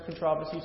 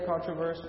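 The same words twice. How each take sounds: First: Controversy stressed on the second syllable, con-TROV-er-see; British pronunciation. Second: Controversy stressed on the first syllable, CON-truh-ver-see; American pronunciation. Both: Retold or imitated. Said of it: "he maintains his British accent".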